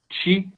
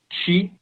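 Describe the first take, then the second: No difference in how they are said.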